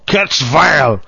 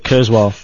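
First: The second part starts with a V sound. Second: The second part starts with a W sound. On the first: The speaker calls it wrong. "they're calling Kurzweil, V-E-I-L" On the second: The speaker calls it right. "Instead of Kurzweil"

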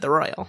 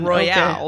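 First: The name sounds like the everyday word 'royal'. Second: The name ends in a stressed 'ahl' sound. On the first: This is how the characters say it. "in the show, they've always said" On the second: This follows the written spelling. "It's spelled like it would be"

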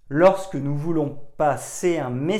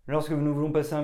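First: The phrase is spoken slowly, syllables clearly detached. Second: The phrase is spoken quickly, syllables run together. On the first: The words carry more weight. The speaker calls it right. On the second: The listeners will struggle to understand. The speaker calls it wrong.

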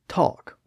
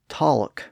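First: The word is said with a vowel and no L. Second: The word is said with an audible L sound. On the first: The speaker calls it right. "we say talk with the ah vowel" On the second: The speaker calls it wrong. "We don't say talk"

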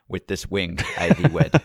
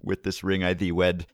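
First: The word ring starts with a w sound. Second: The word ring starts with an r sound. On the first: The speaker calls it wrong. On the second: The speaker calls it right.

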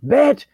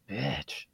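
First: It is shouted loudly and forcefully. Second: It is said quietly and subtly.

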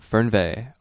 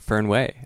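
First: It is pronounced the non-local way. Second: It is pronounced the Pacific Northwest way.

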